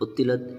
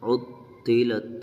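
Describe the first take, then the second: First: The doubled t is clipped short without holding. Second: The doubled t is held briefly before release. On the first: The speaker calls it wrong. "ऐसे पढ़ेंगे तो तशदीद की अदायगी सही नहीं होगी" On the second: The speaker calls it right. "थोड़ा ठहर कर"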